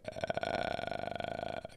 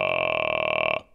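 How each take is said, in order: First: A thin, crackly, unsupported vocal fry. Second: A low, supported, strong chest fry.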